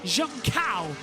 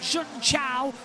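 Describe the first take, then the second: First: The second syllable begins with a 'k' sound. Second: The second syllable begins with a 'ch' sound. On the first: The speaker calls it right. "It is Junkao, as in Jun and then cow" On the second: The speaker calls it wrong. "Not Jun Chao"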